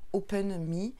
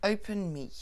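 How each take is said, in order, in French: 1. Il est prononcé avec un faux accent français. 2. Il est prononcé avec un accent néo-zélandais natif. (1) "il faudrait que je prenne l'accent euh, français" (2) "j'utilise mon anglais euh, mon anglais natal, puisque je suis d'origine néo-zélandaise"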